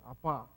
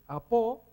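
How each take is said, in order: First: The word ends with an a-like vowel. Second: The word ends with a clear o vowel.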